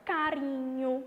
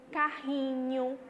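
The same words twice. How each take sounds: First: Carinho with a quick tapped r, ca-ri-nho; light single r. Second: Carrinho, slow, with a strong throaty h-like rr; strong double r. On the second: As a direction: stretch carrinho and push the rr from the throat like an h. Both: Shown as a demonstration. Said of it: "a gente põe os dois R's pra ela ficar mais forte".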